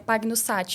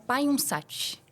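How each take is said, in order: First: The surname is pronounced the Portuguese way. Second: The surname is pronounced the Italian way. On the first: "no português, né" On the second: "mas no italiano se pronuncia"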